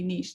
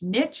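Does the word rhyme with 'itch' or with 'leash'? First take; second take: leash; itch. First: The word ends like 'leash'. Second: The word ends like 'itch'. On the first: The speaker calls it right. "It's always going to be niche" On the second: The speaker calls it wrong. "like you got a gnat and it itches"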